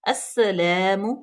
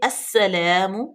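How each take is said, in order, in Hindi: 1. s की आवाज़ दोहरी होती है और मज़बूती से सीटी जैसी निकाली जाती है। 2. s की आवाज़ दोहरी होती है और मज़बूती से सीटी जैसी निकाली जाती है।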